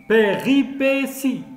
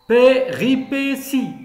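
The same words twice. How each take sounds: The two takes are said the same way.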